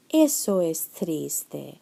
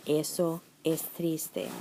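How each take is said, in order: First: "Eso es triste" said slowly, each word set apart; slow clear model. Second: "Eso es triste" said softer and slowly, every word clear; softer model. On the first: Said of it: "Another example". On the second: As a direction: repeat "Eso es triste" softly for the class. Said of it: "so I use the neutral form". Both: Shown as a demonstration.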